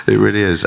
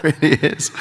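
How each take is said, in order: First: Said in the usual way. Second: Laughing it out higher. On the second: Real, not acted. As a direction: chuckle through the words. Laughing at the huge cast.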